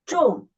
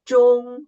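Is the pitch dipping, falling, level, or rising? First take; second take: falling; level. First: The pitch falls sharply from high to low. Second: The pitch stays high and level. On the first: "the fourth tone ... from the highest down to the lowest" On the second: "the first tone is the highest tone and flight"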